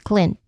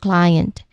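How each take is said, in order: First: The vowel does not glide clearly. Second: The vowel glides as a clear diphthong. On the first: The speaker calls it wrong. "the common mistake listed" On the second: The speaker calls it right. "You just say the I clearly, which is a diphthong"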